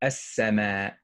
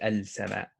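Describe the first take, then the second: First: The L blends into a doubled S sound. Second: The L of the article is clearly pronounced. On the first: The speaker calls it right. "What would you hear? As-sama" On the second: The speaker calls it wrong. "We wouldn't say al-sama"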